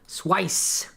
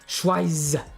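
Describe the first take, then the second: First: The word ends in a hissing s sound. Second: The word ends in a buzzing z sound. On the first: "Schweiss rhymes with price" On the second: "My head kind of buzzes a little when I go with the z"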